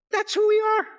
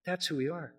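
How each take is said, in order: First: High, loud declaration; fervent loud preaching; ringing proclamation. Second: Much softer echo of the proclamation; quiet emphatic restatement; soft repeat. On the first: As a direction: shout it triumphantly. Climax take of same line. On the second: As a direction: drop to a near hush. Repeats climax line softly. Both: Acted.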